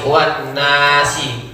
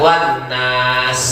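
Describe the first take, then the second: First: The last word ends with a final vowel. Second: The last word ends on the consonant s. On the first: The reciter continues without stopping. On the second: The reciter stops at the end of the verse.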